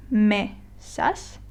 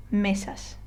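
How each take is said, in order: First: "mesas" broken in two, me, pause, sas; split into syllables. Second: "mesas" as one word, stressed on ME; stress next-to-last syllable. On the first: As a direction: say "mesas" syllable by syllable with a clear gap. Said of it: "you have to divide it into syllables". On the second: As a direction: read "mesas" with the weight on the first syllable, ME-sas. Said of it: "if I were to read this word correctly". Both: Shown as a demonstration.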